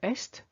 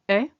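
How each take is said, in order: First: It ends with audible s and t sounds. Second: It ends on a bare vowel sound. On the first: It sounds like the word for east. The speaker calls it wrong. "Please don't say est, because if you say that, I'm hearing east" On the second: It means is. The speaker calls it right. "the sum of E S T will make the sound est only"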